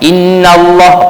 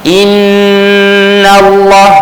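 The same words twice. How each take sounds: First: The nasal hum on 'inna' is cut short. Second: The nasal hum on 'inna' is held long. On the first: The speaker calls it wrong. "pendek sangat" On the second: The speaker calls it right. "dua harakat tu kan, jangan tinggal"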